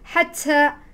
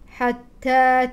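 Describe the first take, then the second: First: The t has a strong burst of breath. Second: The t has only a light puff of breath. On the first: The speaker calls it wrong. "فلا تقولي حتى حتى" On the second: The speaker calls it right. "هناك صفة الهمس لكنها خفيفة"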